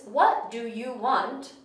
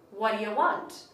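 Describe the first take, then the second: First: Each small word is said fully and separately. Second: The small words are combined into one reduced word. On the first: "So the sentence"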